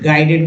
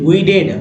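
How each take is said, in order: First: The first syllable sounds like 'guy'. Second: The first syllable sounds like 'goo-ee'. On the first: The speaker calls it right. "लेकिन दोस्तों इसे पढ़ते हैं गाइडेड" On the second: The speaker calls it wrong. "गुइडेड गुइडेड पढ़ सकते हैं"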